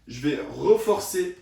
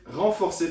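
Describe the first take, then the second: First: "reforcer" said without the nasal, as re-for-cer; tripping over "reforcer" mid-demo; slip of the tongue. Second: "renforcer" said properly with nasal ren; fixing the word "renforcer" right away; self-correction. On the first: Physio misspeaks "reforcer" while explaining a grip to viewers. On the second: Physio corrects himself to "renforcer" for viewers. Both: Real, not acted.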